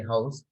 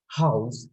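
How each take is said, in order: First: "house" said briefly, the everyday local way; Sri Lankan pronunciation. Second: "house" slow, with a drawn-out vowel; real-accent pronunciation. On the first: Teacher showing class the local way, Sri Lankan pronunciation. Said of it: "we say house". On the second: Teacher showing class the real accent, careful drawn-out pronunciation. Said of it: "real accent is house". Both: Shown as a demonstration.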